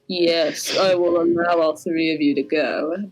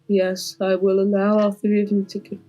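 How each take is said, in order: First: It is said in a harder, gruffer voice. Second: It is said in a softer, plainer voice.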